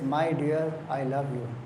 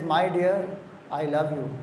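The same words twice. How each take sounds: First: It is said at a normal, soft volume. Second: It is said more loudly.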